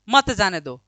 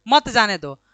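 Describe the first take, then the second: Both takes have the same delivery.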